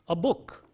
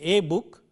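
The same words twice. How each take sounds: First: The article is reduced to a short schwa. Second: The article has a full vowel, like the letter name. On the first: The speaker calls it right. "So we say a book" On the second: The speaker calls it wrong. "We don't say a book"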